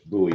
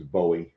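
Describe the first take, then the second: First: The name is said the Fort Worth local way. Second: The name is said the outsider's way. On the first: The speaker lives in the area. "if you live in the D F W area" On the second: The speaker lives somewhere else. "if you're heading to live anywhere else"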